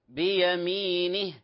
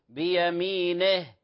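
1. الحركة كسرة قصيرة واضحة. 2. الصوت بين الكسرة والفتحة. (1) "الأصل نقول" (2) "يقف عليها بين الكسرة والفتحة"

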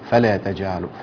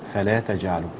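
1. المقطع الأخير من فلا ما بياخدش أي ضغط. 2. المقطع الأخير من فلا بياخد ضغطة خفيفة. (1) "بدون ضغط على الألف الأخيرة كده" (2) "ضغطة شوية صغيرة كده بس"

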